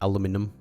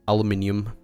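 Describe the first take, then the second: First: It is said the American way, with four syllables. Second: It is said the British way, with five syllables. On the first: "Rather than" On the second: "I pronounce some words the way they do in, like, British English"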